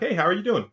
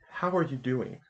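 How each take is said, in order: First: It is asked as a casual pleasantry. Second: It is asked earnestly, with real intent.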